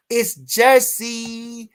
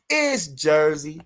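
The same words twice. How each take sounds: First: Slow, drawn-out, higher and louder; hyped Jersey call. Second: Said in the usual way. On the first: Real, not acted. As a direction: stretch it out like a proud shout-out. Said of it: "drawn-out hype call". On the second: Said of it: "repeat of the same line".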